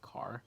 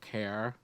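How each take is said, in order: First: The word is said in a standard accent. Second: The word is said in a Buffalo accent. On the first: "instead of like" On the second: "people in Buffalo have that same accent too. ... they'll say like"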